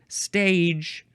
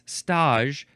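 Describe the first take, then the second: First: It is said like the ordinary English word stage. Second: It ends with a soft zh sound, like frottage. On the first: It is the ordinary English word. The speaker calls it wrong. "Looks like the word stage" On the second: It is the kitchen role. The speaker calls it right. "but it's stage, so this is a very similar pronunciation to this word, frottage"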